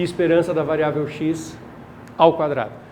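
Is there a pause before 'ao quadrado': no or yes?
yes. There is a pause before 'ao quadrado'. The expected value is squared after it is calculated.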